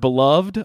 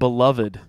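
First: The -ed ending is not said as a syllable. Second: The -ed ending is said as its own syllable. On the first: "I can't say the word beloved" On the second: "I always want to say it beloved"

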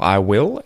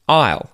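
First: Both words are said fully and separately. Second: The two words merge into one syllable. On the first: "First, we're going to say the uncontracted form" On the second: "we're going to say the contracted form"

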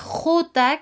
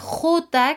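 First: The letter is named with Spanish pronunciation. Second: The letter is named with Spanish pronunciation.

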